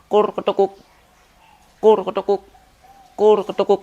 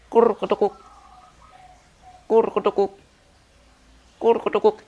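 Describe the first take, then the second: First: The calls follow each other with short gaps. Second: The calls are separated by noticeably longer gaps. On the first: The bird calls at a tight, fast rate. "ini speed durasi yang rapat" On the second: The bird calls at a loose, slower rate. "kalau speed durasinya senggang itu seperti ini"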